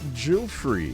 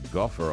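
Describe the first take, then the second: First: The name begins with a J sound. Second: The name begins with a hard G sound. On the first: The speaker calls it right. "It's actually Jufrey" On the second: The speaker calls it wrong. "Virginia's name is not pronounced Guffer"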